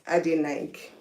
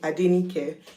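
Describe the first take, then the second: First: The name has an anglicized, English-sounding pronunciation. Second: The name has its original Yoruba pronunciation. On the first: It is changed to be easier for foreigners to say. The speaker calls it wrong. "funkify the name ... a bit more palatable to the Oibo people's ears" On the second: This is the name's proper pronunciation. The speaker calls it right. "like it should be pronounced"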